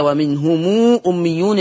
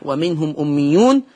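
First: ومنهم أميون read "wa-minhumuu", long ū before أميون; lengthened mim. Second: Said in the usual way. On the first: Shown as a demonstration. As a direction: stretch a long ū after the م of ومنهم. (ومنهم أميون بصلة الميم مشبعة) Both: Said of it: "يقرأ بالصلة".

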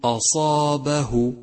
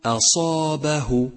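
First: Slow أصابه with أ thickened like the ص; wrong heavy hamza. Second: Slow أصابه with thin أ before heavy ص; correct light hamza. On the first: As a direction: let ص darken the أ in أصابه. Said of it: "وخطأ أن تقول". (أصابه بتفخيم الهمزة خطأً) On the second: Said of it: "فالصحيح أن تقول". (أصابه بهمزة مرققة) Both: Shown as a demonstration.

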